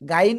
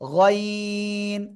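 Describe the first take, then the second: First: The vowel is thin and light. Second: The vowel is heavy and thick. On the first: The speaker calls it wrong. "গাইন বলবো না" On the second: The speaker calls it right. "একটু মোটা আওয়াজে"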